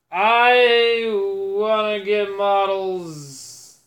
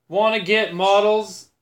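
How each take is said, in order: First: I drawn out slow and stressed. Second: Said in the usual way. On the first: Shown as a demonstration. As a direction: lean on I, stretch the whole line slowly. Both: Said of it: "as in Warhammer models".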